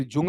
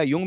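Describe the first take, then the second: First: "जुंग" starting with a hard English J; Jung with J. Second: "युंग" starting with a Y glide; Jung with Y. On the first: Teacher names the psychologist as spelt, "जुंग" with a J sound. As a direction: say "जुंग" with J as in jungle. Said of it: "युंग में जाएगा". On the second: Teacher restates the psychologist's name, "युंग" with a Y sound. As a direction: say "युंग" with Y as in you. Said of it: "वही फिर जुंग में जाएगा". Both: Shown as a demonstration.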